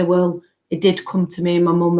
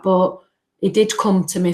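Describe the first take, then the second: First: Did leaned on firmly; reassuring herself that he did come; stress on did. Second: Said in the usual way. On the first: Retold or imitated. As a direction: press the word did to reassure yourself. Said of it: "I kind of talked to myself and say". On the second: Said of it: "talked to myself".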